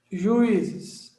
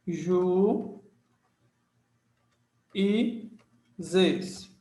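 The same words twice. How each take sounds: First: Said in the usual way. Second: Juízes split into "Ju... e... zes" with long gaps; each syllable of juízes drawn out separately. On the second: Shown as a demonstration. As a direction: sound out "Ju e zes" one syllable at a time. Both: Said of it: "Separação silábica".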